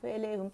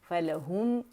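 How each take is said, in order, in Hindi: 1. अक्षर बिना अलग उच्चारण के आपस में जुड़े हुए बोले जाते हैं। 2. हर अक्षर जबड़ा खोलकर अलग-अलग उच्चारित होता है। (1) "हम इस तरह नहीं पढ़ सकते" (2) "फ़ा के मखरज पे अलग जाएंगे, लाम के अलग अलग जाएंगे और जबड़ा खुलेगा"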